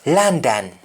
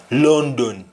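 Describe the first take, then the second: First: "London" said LAN-dan, with "ah"; English-style "London", open "ah" vowels; English pronunciation. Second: "London" said LON-don, with O vowels; Jamaican pronunciation. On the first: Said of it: "pronounced in English". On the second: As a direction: say "London" the Patois way, as london. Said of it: "will be London in Jamaican". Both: Shown as a demonstration.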